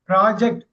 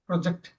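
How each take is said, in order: First: The first syllable is loud and drawn out. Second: The first syllable is quiet and held back. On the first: It is used as a noun. "நவுனா ப இது பண்றப்ப பெருசா பேசணும்" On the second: It is used as a verb. "வெர்பா படிக்கிறப்ப ரொம்ப அடக்கி வாசிக்கணும்"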